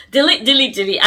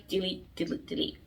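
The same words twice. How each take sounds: First: Louder, punchy repeated delete; emphatic delete. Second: Much softer, trailing repeated delete; quiet delete. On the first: Vlogger ordering viewers to delete an ex, loud and punchy. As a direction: hammer each delete as a command. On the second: Vlogger quietly repeating advice to delete an ex, soft trailing. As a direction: let the deletes fade to almost nothing. Telling viewers to delete him. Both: Real, not acted.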